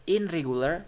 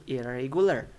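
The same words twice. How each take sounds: First: "In regular" with a clear n; unassimilated IN REGULAR. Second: "irregular" with n turned to r; r replaces n in "irregular"; assimilated IRREGULAR. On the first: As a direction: keep n before r in "In regular". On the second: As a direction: say "ir-regular" with no n. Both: Shown as a demonstration. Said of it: "So, ne turns to re".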